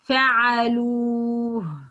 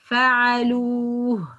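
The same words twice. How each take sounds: No difference in how they are said.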